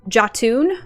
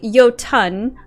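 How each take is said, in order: First: The word sounds like 'ja-toon', ending in 'toon'. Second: The word sounds like 'yo-tun', ending in 'tun'. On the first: The speaker calls it wrong. "pronounced that word ... as um, Jatoon" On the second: The speaker calls it right. "it is very clearly Jotun"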